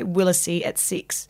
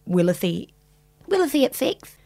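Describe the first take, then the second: First: The s sound is crisp and clear. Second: The s sound is lisped, like th. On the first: "I had to say Willacy at 6" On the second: "but I had a lisp. So I said Willacy at 6"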